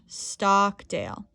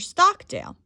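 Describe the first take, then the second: First: The vowel in Stockdale is drawn out longer. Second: The pitch on Stockdale goes up then down. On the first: "you can elongate the vowel sound" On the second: "you can use an increase in pitch. going up and down"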